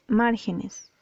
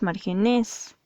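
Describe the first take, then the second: First: The stress is on the first syllable. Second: The stress is on the last syllable. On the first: The speaker calls it right. "tildada en la antepenúltima sílaba" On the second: The speaker calls it wrong. "No puede ser una aguda porque no es márgenes"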